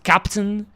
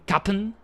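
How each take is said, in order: First: The word is said in full, every syllable clear. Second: The word is clipped quickly, its sounds swallowed together.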